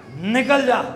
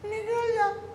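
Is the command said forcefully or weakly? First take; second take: forcefully; weakly. First: It is said boldly and forcefully. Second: It is said weakly, without force.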